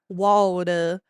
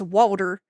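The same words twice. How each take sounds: First: The R sound is dropped and drawn out. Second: The R sound is strongly pronounced. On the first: It imitates a mistaken outsider impression of the accent. The speaker calls it wrong. "They're they don't pronounce their R's" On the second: It reflects how the accent is actually spoken. The speaker calls it right. "Appalachian accent is very R heavy"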